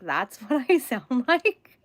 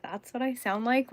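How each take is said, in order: First: Mock dismay. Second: Said in the usual way. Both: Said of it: "I'm like".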